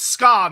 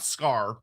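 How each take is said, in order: First: The name ends in an open vowel, no r. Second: The name ends with an r sound. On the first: The speaker calls it right. "So it's Ska" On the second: The speaker calls it wrong. "not Scar"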